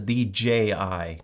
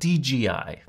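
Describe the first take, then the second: First: The middle letter is pronounced as J. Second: The middle letter is pronounced as G. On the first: The speaker calls it right. "it's called the DJI" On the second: The speaker calls it wrong. "not DGI"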